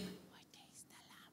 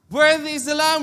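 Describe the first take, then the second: First: It is said softly, without force. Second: It is said loudly, with force.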